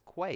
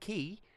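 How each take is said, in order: First: The word starts with a 'kw' sound. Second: The word starts with a plain 'k' sound. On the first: This is how the spelling suggests it sounds. "any normal fucking person in the right mind would pronounce that as quay" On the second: This is how the word is actually said. "It's not fucking key"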